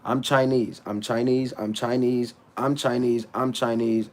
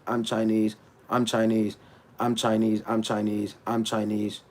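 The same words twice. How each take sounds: The two takes are said the same way.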